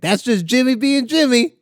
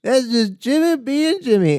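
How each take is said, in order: First: Higher put-on voice, singsong; mock comedian voice. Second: Higher, slower put-on repeat; mock comedian voice. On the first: Retelling a comic's catchphrase in a high voice. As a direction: sing out the catchphrase. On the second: Repeating a comic's catchphrase high and slow. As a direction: drag the catchphrase out. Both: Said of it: "he did this thing where he was like".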